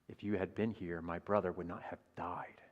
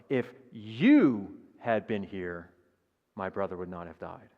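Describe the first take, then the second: First: The stress is on "died". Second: The stress is on "you".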